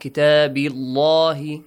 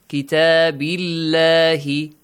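First: The L sound is heavy and full. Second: The L sound is light and thin. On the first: The speaker calls it wrong. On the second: The speaker calls it right. "So pronounce it with a light sound"

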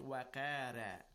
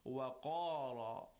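First: The r sound is thin with a flat mouth. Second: The r sound is heavy with a rounded mouth. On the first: The speaker calls it wrong. "not waqara" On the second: The speaker calls it right. "You round your mouth and give it a heavy sound"

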